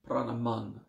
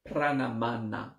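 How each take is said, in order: First: The final a vowel is muted and dropped. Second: The word ends with a pronounced final a vowel. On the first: "you mute it a bit" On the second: "It is written Pranamana"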